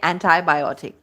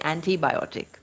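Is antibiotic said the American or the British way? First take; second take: American; British. First: The word is said the American way. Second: The word is said the British way. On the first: "in American English they say antibiotic" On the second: "we speak British English and we say antibiotic"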